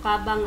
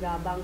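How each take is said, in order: First: The word begins with a voiceless k sound. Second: The word begins with a voiced g sound. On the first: The speaker calls it right. "kabang ang bigkas" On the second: The speaker calls it wrong. "hindi nyo siya babasahin ng gabang"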